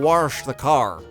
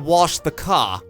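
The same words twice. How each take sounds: First: It is said in a Texas accent. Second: It is said in a Boston accent. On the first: "the R's go to Texas, where they say" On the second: "the R's left Boston, so they say"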